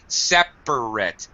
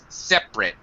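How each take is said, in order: First: All three syllables are fully pronounced. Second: The middle syllable is dropped.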